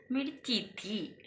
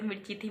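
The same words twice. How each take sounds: First: Soft, slow little-girl voice, lightly imitated; sweet child imitation. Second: Quick, soft repeat of the child's words, lightly imitated; a tender echo of the little girl; sweet child imitation. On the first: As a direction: gently echo the little girl's sweet complaint. (प्यार से, धीमी आवाज़ में बच्ची की हल्की नकल) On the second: (बच्ची की प्यारी आवाज़ की हल्की, धीमी नकल) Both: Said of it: "कितने प्यार से बोला उसने".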